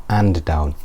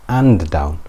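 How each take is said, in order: No difference in how they are said.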